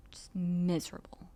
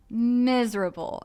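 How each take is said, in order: First: A breathy whisper of misery. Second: "miserable." slower, louder and higher, falling at the end; drawn-out misery. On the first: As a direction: breathe it out unvoiced, despairing. Whispered, then repeated louder. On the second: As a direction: stretch out "miserable." and let it sink. Repeated after the whispered take. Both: Retold or imitated.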